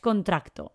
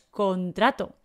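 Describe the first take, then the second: First: A k sound comes before the final t. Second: No k sound comes before the final t. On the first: The speaker calls it wrong. "No es contracto" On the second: The speaker calls it right. "es contrato"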